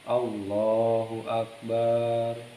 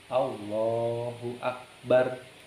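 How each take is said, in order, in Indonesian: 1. Vokal setelah b pada Akbar dipanjangkan. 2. Vokal setelah b pada Akbar dibaca pendek. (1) "Huruf ba-nya itu dipanjangin ketika lafaz akbar" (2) "harus pendek"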